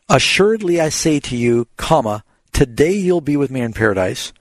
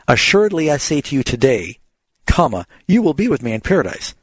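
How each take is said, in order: First: The break comes before the word today. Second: The break comes after the word today.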